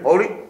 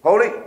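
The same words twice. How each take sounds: First: It is said flatly, like a robot. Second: It is said flatly, like a robot.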